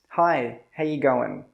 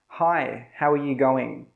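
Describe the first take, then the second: First: It is quick, with reduced 'ya' and 'goin'. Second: Every word is said clearly and in full.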